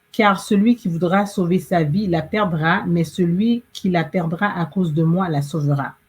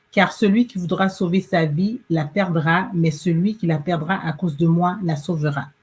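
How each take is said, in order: No difference in how they are said.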